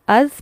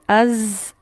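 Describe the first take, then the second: First: The consonant is said softly, from the teeth tips. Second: The consonant is said forcefully, with a buzzing sound. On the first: The speaker calls it right. "इसे हम अज पढ़ेंगे" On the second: The speaker calls it wrong. "ये वाली साउंड से नहीं पढ़ेंगे"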